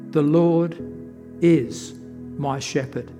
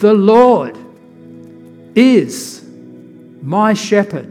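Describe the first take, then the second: First: It is read plainly, with no special stress on is. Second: The word is gets strong emphasis.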